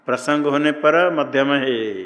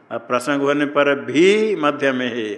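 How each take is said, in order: First: Said in the usual way. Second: Slow, with भी stretched out long; stress on भी. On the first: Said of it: "कहाँ से मिला". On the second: Shown as a demonstration. Teacher showing what अपि adds, stress on भी. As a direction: hold and lean on भी. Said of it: "अपि से आया".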